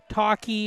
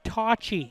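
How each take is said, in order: First: The middle consonant is a 'k' sound. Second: The middle consonant is a 'ch' sound. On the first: The speaker calls it wrong. "not Talkie or however anybody else would want to pronounce it" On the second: The speaker calls it right. "it's T A W space C H I ... it's pronounced Tocci"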